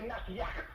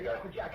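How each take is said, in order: First: The second word begins with a Y sound. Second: The second word begins with a J sound.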